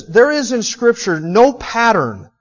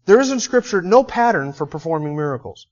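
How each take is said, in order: First: Slow with NO punched, higher and louder; emphatic. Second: Said in the usual way. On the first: Acted. Preacher announcing his first point, slow and emphatic. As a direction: land "no" hard and slow: There is in Scripture NO pattern.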